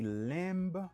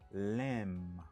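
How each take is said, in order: First: The b sound at the end is pronounced. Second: The b sound at the end is silent. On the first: The speaker calls it wrong. "Yo pa di lamb" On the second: The speaker calls it right. "yo di lamb"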